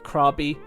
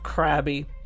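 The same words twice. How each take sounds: First: The name does not sound like crabby. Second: The name sounds like the word crabby. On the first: The speaker calls it right. "as it's actually pronounced" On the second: The speaker calls it wrong. "the place in Thailand which sounded most like a Pokemon"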